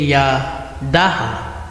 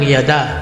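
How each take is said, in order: First: It is said as three syllables, ending in ha. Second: It is said as two syllables, without a final ha. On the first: The speaker calls it wrong. "Hindi po pwedeng yadaha" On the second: The speaker calls it right. "Tulad ng yada"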